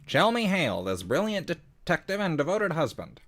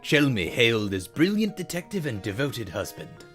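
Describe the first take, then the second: First: It is read in an old-time newscaster voice. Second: It is read in a plain everyday voice.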